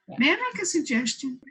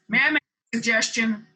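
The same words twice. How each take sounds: First: The question sounds warm and friendly. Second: The question sounds harsh and off-putting. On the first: The listener feels invited to accept. The speaker calls it right. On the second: The listener feels pushed away. The speaker calls it wrong.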